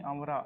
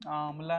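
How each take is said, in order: First: "आंवरा", ending in -ra; Chhattisgarhi form. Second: "आंवला", ending in -la; standard Hindi form. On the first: Teacher corrects students to Chhattisgarhi, "आंवरा" with final -ra. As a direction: say "आंवरा" with r replacing the l. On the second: Teacher rejects Hindi form for students, "आंवला" with final -la. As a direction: say "आंवला" with an l in the last syllable. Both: Shown as a demonstration. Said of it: "आंवला नहीं".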